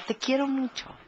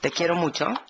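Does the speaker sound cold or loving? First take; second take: loving; cold. First: It is said lovingly, with a smile. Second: It is said coldly, without a smile.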